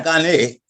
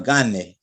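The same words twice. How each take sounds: First: Gane said as ganÉ, with the weight on the final E; stress on the last syllable. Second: Gane said as GAne, with the weight on the first syllable; stress on first syllable. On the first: Spanish teacher showing the wrong stress on gane. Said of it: "that'd be like an accent mark on the E". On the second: Spanish teacher correcting a student with the right stress on gane. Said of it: "the accent is actually on the first syllable". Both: Shown as a demonstration.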